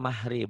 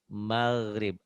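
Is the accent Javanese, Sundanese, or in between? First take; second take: Javanese; in between. First: A soft Javanese-style h sound. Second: A sound between Sundanese and Javanese.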